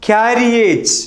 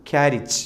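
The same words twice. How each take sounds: First: ക്യാരിയേജ് in three syllables with long "yej"; common mispronunciation. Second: ക്യാരിജ് in two short syllables; correct pronunciation. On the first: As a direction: say ക്യാരിയേജ് as "kya-ri-YAYJ". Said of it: "തെറ്റായി". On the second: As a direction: say ക്യാരിജ് as "KYA-rich". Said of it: "കൃത്യമായ ഉച്ചാരണം". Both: Shown as a demonstration.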